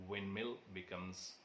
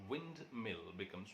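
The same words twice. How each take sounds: Both takes have the same delivery.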